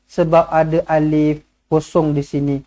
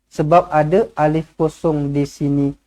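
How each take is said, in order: No difference in how they are said.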